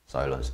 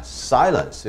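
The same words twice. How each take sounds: First: The word is said softly and calmly. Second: The word is said loudly and forcefully. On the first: It means quietness or stillness. The speaker calls it wrong. "silence 이렇게 안 합니다" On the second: It is a sharp order to be quiet. The speaker calls it right. "silence 이렇게 강하게 해야 맞힐 거예요"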